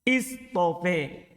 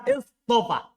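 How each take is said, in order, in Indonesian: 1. Vokal akhirnya condong ke 'e'. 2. Vokal akhirnya 'a' terbuka.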